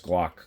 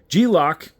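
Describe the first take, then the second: First: The name is said as one syllable, Glock. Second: The name is split into two parts, G-Lock.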